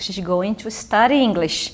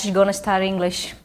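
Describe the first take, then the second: First: 'Going to' is pronounced in full. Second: 'Going to' is reduced to 'gonna'. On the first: This is the standard way to say it. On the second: This is the informal way to say it.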